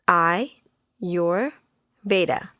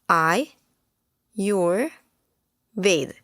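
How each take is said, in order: First: The word ends with a vowel sound. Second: The word ends with a consonant sound. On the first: "Some people may call it" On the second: "pronounced as"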